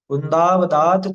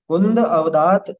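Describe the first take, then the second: First: The two words are merged into one. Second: The two words are said separately. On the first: "मिलके बनेगा कुंदावदात" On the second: "शब्दों को तोड़ते हैं"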